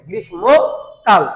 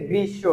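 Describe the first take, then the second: First: গ্রীষ্মকাল drawn out slowly, as "grishmokal" with m sounded; the mistaken reading গ্রীষ্মকাল, slowly; wrong pronunciation. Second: গ্রীষ্ম said with doubled s, "grissho"; corrected গ্রীষ্ম, doubled s; correct pronunciation. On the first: Retold or imitated. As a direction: imitate the common mistake: গ্রীষ্মকাল, slow, m spoken. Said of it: "অনেকেই বলি কি গ্রীষ্মকাল বলে থাকে". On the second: Shown as a demonstration. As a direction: give the right form: গ্রীষ্ম as grissho. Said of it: "উচ্চারণ হবে না, হবে হচ্ছে".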